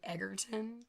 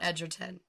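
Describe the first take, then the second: First: The first syllable has a hard g sound. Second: The first syllable has a soft j sound. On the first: The speaker calls it wrong. "for me saying Egerton" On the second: The speaker calls it right. "And not Edgerton"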